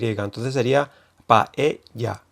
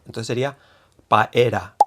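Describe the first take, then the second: First: The middle consonant is a Y sound. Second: The middle consonant is an R sound. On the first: "que hay yeísmo y se pronuncia con Y" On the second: "se escribiría como la R, ¿no? Con ra"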